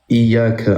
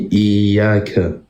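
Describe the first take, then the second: First: The vowel is short, not stretched. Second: The vowel is stretched out long. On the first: The speaker calls it wrong. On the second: The speaker calls it right.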